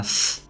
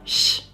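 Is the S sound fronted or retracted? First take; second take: fronted; retracted. First: The S is fronted, a sharp hiss. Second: The S is retracted, sounding close to sh. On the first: "rather than a s" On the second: "retracted S"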